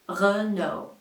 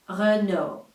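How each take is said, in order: First: It is said with a French accent. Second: It is said with a French accent.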